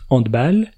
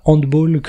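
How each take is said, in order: First: Handball said the French way, ending in -bal; correct pronunciation. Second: Handball said the English way, ending in -bol like football; wrong pronunciation. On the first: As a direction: say handball with a flat a, like balle. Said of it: "c'est la prononciation correcte". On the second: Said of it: "C'est pas handball comme football". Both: Shown as a demonstration.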